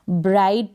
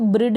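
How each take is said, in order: First: ब्राइड with a long "ai", "braid"; correct pronunciation. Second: ब्रिड with a short i, "brid"; short-vowel mistake "brid"; wrong pronunciation. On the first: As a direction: say ब्राइड to rhyme with side. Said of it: "ब्राइड पढ़ेंगे". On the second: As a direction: misread ब्रिड as "brid", rhyming with lid. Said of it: "इसको ब्रिड नहीं पढ़ देंगे". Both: Shown as a demonstration.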